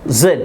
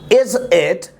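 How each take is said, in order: First: The words are squeezed into one short syllable. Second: Both words are said fully and separately. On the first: "Zit, zit" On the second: "the pronunciation of is it"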